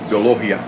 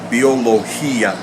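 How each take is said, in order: First: The stress falls on the syllable with o. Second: The stress falls on the syllable with i. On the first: The i is a weak vowel without its accent mark. "if I didn't have the accent there on the I ... The natural stress would have come on the O" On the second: The i forms its own syllable. "there's a stress on the I, and therefore it is its own syllable"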